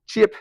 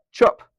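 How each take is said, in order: First: "chip" with the vowel of "ship"; short I. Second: "chop" said as "chup", with an uh sound; Kiwi vowel. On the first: Teacher showing the old vowel, "chip" with short I. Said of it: "It's no longer "eh". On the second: Teacher showing the New Zealand vowel, "chop" as "chup". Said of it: "We turn it, "uh". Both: Shown as a demonstration.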